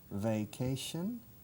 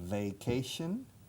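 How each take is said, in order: First: The word starts with a buzzing V sound. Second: The same.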